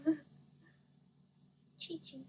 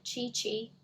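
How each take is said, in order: First: "Chi Chi" said "tee tee" with a laugh, softer; corrected Chi Chi. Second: "Chi Chi" with hard "ch" sounds; wrong reading of Chi Chi. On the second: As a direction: say "Chi Chi" as "chee chee". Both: Real, not acted. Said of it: "I spelled it wrong".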